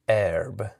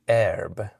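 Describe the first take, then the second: First: The vowel is a short e before r. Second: The same.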